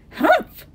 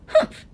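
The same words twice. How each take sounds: First: High, loud huff of disapproval; sour humph. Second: Loud little echoing huff; young kangaroo humph. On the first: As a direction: sour kangaroo's scornful humph. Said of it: "'Twas a sour kangaroo". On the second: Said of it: "the young kangaroo in her pouch said". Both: A narrator's reading.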